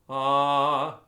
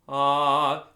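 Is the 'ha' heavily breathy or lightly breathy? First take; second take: lightly breathy; lightly breathy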